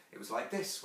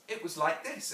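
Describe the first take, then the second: First: Understated grown-up mother's voice; Wendy. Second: Lightly voiced serious little girl; Jane. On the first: Acted. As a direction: say it lightly, as a mother demonstrating. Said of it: "Wendy said". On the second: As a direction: show mother how it's done, as a child. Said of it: "Jane said gravely".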